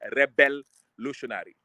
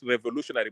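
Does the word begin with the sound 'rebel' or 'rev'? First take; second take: rebel; rev. First: The word begins with a 'rebel' sound. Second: The word begins with a plain 'rev' sound. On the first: The speaker calls it right. "but rebel-lutionary" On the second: The speaker calls it wrong. "not revolutionary"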